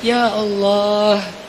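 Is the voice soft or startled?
soft. It is said softly and gently. The speaker is confiding in God. The speaker calls it right. "Kalau mau curhat"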